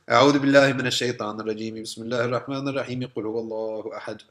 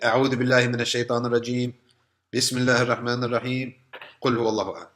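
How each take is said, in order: First: The three phrases are joined in one breath. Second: There are pauses between the three phrases.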